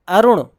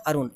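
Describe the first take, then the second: First: अरुण punched loud with retroflex ण released; correct retroflex ending. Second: अरुण said casually with plain final n; everyday wrong reading. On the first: Teacher correcting the common reading, full retroflex ending. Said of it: "it's a". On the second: Teacher quoting the common mistake, plain n. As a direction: say अरुण as people simply say it. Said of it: "not अरुण". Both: Shown as a demonstration.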